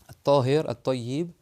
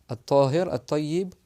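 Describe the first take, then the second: Both takes have the same delivery.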